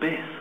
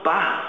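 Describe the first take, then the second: First: The word has the vowel of 'biss'. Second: The word has the vowel of 'bass'. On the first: "or even biss" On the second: "they pronounce it"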